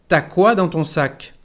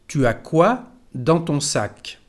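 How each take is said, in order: First: 'Tu as' is contracted into the single syllable 'ta'. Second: 'Tu as' is said as two separate syllables. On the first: This is how people really speak. "Tu as llega a ser ta" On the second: This is the form taught at school. "cuando hablamos no decimos tu as"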